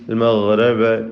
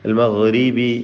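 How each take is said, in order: First: The vowel after r sounds like 'a'. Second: The vowel after r is a clear 'i'. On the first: The speaker calls it wrong. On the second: The speaker calls it right.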